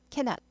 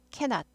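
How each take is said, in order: No difference in how they are said.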